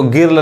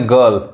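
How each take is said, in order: First: गिर्ल with a short i vowel, the wrong way; wrong reading. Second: गर्ल with a short a vowel and no i; correct reading. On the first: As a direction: say गिर्ल with an i sound before the r. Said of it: "इसको गिर्ल नहीं कहेंगे". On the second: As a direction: say गर्ल as gurl, the i turned into a. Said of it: "क्या पढ़ेंगे, गर्ल". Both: Shown as a demonstration.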